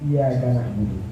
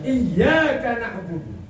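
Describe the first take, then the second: First: The y sound is short and single. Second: The y sound is held and doubled. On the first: To the sun I worship. The speaker calls it wrong. "tanpa tasydid" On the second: Only You do we worship. The speaker calls it right.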